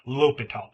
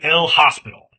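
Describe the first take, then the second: First: The name is said with no s sound. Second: The name is said with an s sound. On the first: The speaker calls it right. "I'm going to call him L'Hôpital" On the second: The speaker calls it wrong. "Please do not call him El Hospital"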